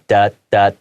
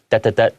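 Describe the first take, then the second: First: The three syllables are drawn out. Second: The three syllables are short. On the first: These are the dashes. "the long sound is what we call the dash" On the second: These are the dots. "Three dots is like"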